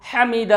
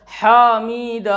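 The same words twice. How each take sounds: First: हमीद with short ह and long ई; correct reading. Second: हामिद with a long हा and short मि; wrong reading. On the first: Teacher to students, the correct pronunciation. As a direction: say हमीद as ह-मीद, not हा-मिद. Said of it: "सही तरीका है दोस्तों हमीद". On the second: Teacher to students, the wrong pronunciation. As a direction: stretch हा and clip मि in हामिद. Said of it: "ये भी गलत". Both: Shown as a demonstration.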